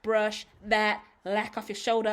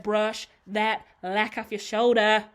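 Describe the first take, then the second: First: Said in the usual way. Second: Slow, louder repeat of "brush that lack off your shoulder"; a firm, deliberate command, each word spaced out; slow insistent repeat. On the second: Shown as a demonstration. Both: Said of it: "I said".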